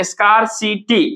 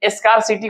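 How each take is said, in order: First: स्कार्सिटी in three separated parts, scar-si-ty; syllable by syllable. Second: Said in the usual way. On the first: Shown as a demonstration. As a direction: break up स्कार्सिटी carefully. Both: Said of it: "तीन part में तोड़े".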